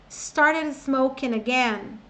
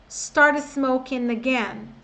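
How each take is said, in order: No difference in how they are said.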